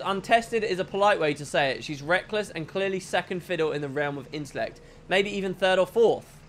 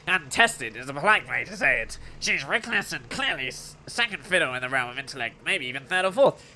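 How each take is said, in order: First: It is said in the speaker's normal voice. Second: It is said in a put-on character voice.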